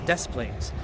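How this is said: The name is said with English pronunciation. This is how the name is said locally today. "the anglicization of it is it's now Des Plaines"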